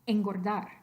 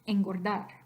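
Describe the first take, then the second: First: The n is an ng-like velar sound. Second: The same.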